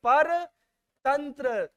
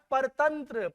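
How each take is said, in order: First: परतंत्र very slowly, broken into पर and तंत्र; drawn-out emphasis. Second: Said in the usual way. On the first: Shown as a demonstration. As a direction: stretch out परतंत्र part by part. Term repeated slowly for students.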